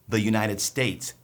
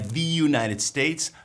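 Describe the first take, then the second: First: The article has a short 'uh' vowel. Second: The article has a long 'ee' vowel. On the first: The speaker calls it right. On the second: The speaker calls it wrong.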